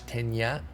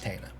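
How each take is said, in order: First: The middle consonant is an ny sound. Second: The middle consonant is a plain n sound. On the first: The speaker calls it wrong. "there is no tilde, so it's not Tanya" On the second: The speaker calls it right. "It's just Tana"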